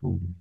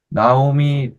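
First: The name begins with a 'no' sound. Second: The name begins with a 'na' sound. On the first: This is the actual original pronunciation. The speaker calls it right. "원래 실제 발음은 노우미가 돼요" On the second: This is the usual familiar way of saying it. The speaker calls it wrong. "원래 우리는 나오미 이렇게 하는데"

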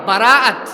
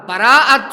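Both takes have the same delivery.

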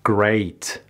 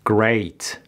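No difference in how they are said.

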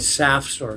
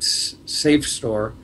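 First: The first vowel sounds like the one in 'sap'. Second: The first vowel sounds like the one in 'safe'. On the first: The speaker calls it right. "I call it SAF store" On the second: The speaker calls it wrong. "They call it safe store"

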